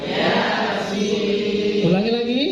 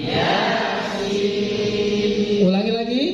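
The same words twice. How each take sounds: The two takes are said the same way.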